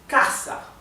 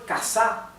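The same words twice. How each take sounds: First: The stress is on the first syllable. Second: The stress is on the last syllable. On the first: The speaker calls it right. "It is casa. The accent is here, so it is grave" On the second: The speaker calls it wrong. "If it were casa, it would be aguda, because the accent would be in the, at the end"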